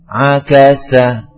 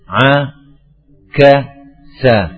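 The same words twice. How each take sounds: First: The syllables are joined smoothly without breaks. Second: The syllables are broken apart with short breaks. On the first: "kemudian disambung" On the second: "bisa diputus"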